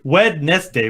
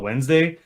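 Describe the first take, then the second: First: Every syllable of the spelling is sounded out. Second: It is reduced to two syllables. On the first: This is how the spelling looks. "it's like Wednesday" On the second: This is how it is actually said. "but I go Wednesday"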